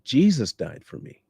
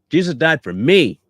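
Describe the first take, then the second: First: The stress is on the word Jesus. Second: The stress is on the word me.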